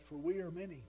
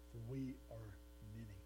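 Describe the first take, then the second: First: The preacher rereads the demon's answer, louder and bold; loud bold demon claim. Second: Lower, softer and eerie, many voices as one; a possessed man answering Jesus, lower, softer, eerie; low demon voice. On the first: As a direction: proclaim the demon's boast outright. Same demon line reread, louder. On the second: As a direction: let the demon answer from deep inside. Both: A narrator's reading.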